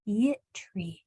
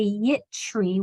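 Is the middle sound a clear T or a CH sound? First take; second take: clear T; CH. First: The middle sound is a clear T sound. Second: The middle sound is a CH sound. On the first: The speaker calls it right. "Make that t and the er really clear" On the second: The speaker calls it wrong. "with a C H sound in the middle"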